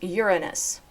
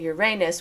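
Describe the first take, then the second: First: The stress is on the first syllable. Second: The stress is on the second syllable. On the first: "with stress on the first syllable" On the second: "which stresses the second syllable as a long A"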